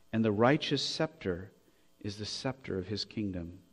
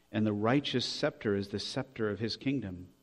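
The two takes are said the same way.

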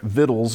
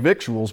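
First: The word is said like 'vittles'. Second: The word is said the way it is spelled. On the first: The speaker calls it right. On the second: The speaker calls it wrong.

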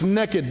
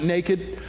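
First: The word is said in a Texan accent. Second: The word is said in a standard accent. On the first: "It's naked down here in Texas" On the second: "not naked"

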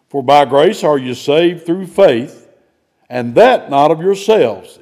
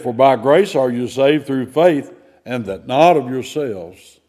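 First: The phrase 'and that not of yourselves' is emphasized. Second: The phrase 'and that not of yourselves' is downplayed.

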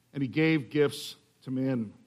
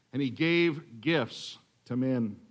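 The two takes are said the same way.

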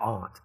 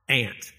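First: The word is said with a non-Southern pronunciation. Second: The word is said with a Southern pronunciation. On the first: The speaker calls it wrong. "Not aunt" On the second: The speaker calls it right. "Good southern way of saying that, right?"

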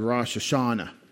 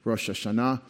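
First: Hashanah is stressed before its last syllable. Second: Hashanah is stressed on its last syllable. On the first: The speaker calls it wrong. "I grew up thinking that was called Rosh Hashanah" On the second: The speaker calls it right. "the accent goes to the last syllable"

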